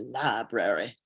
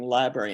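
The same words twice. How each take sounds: First: It is said in a Texas drawl. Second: It is said in a plain, neutral accent.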